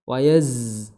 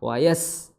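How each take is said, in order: First: The hissing consonant is voiced, with vocal buzz. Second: The hissing consonant is voiceless, without vocal buzz. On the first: The speaker calls it right. "kalau zai dia jahar" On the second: The speaker calls it wrong. "bukan dengan menggetarkan kedua pita suara, maka dia jadi sin"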